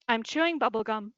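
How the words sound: It is said in a neutral tone.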